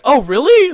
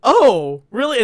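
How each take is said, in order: First: Higher, louder "really" with a jump; imitated excited surprise. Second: Louder, rising "really" in mock surprise; imitated surprise. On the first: Retelling Jordan's excited reaction to the joke. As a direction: gasp it out, hooked. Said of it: "he's genuinely excited". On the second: Retelling Jordan's reaction, mildly surprised. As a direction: act caught off guard. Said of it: "genuinely, like, surprised at this".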